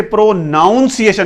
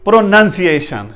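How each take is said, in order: First: प्रोनाउंसिएशन misread as pro-NOWN-si-ay-shun; wrong pronunciation. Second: प्रोनंसिएशन as pro-nun-si-AY-shun; correct pronunciation. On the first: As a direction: say प्रोनाउंसिएशन with "noun" in the second syllable. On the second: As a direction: say प्रोनंसिएशन with short "nun" in the second syllable. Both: Shown as a demonstration. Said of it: "इसे प्रोनाउंसिएशन नहीं पढ़ना".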